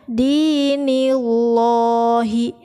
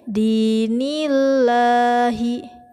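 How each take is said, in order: First: The l of Allah sounds heavy and thick. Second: The l of Allah sounds light and thin. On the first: The speaker calls it wrong. "itu jangan dinillahi, dinillahi, itu salah" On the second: The speaker calls it right. "dibaca tarkik atau tipis"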